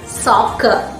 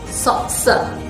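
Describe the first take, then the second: First: The middle consonant is a k sound. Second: The middle consonant is an s sound. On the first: The speaker calls it right. "Both the letter C in this word takes a single k sound" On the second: The speaker calls it wrong. "If it followed the rule, the C rule, it should be pronounced as"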